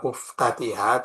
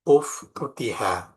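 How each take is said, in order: First: The vowel after the first t is a. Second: The vowel after the first t is u. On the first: The speaker calls it wrong. "Jadi bukan dibaca uftatiha" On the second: The speaker calls it right. "tapi dibaca uftutiha"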